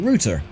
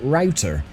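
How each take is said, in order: First: The word is said with a British pronunciation. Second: The word is said with an American pronunciation. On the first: "British people would say router" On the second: "I sometimes say router, which is really bizarre"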